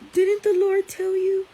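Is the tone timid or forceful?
timid. It is said meekly and hesitantly. The speaker asks permission and defers. The speaker calls it wrong. "she didn't say"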